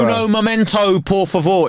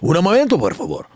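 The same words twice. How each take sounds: First: It is said slowly with an English accent. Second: It is said quickly with a native Spanish accent.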